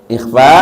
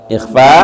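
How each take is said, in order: Both takes have the same delivery.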